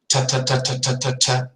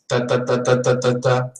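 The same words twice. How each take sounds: First: The t is made without the tongue touching the teeth. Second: The t is made with the tongue touching the teeth. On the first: "But in English, it sounds" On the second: "In Spanish, it sounds"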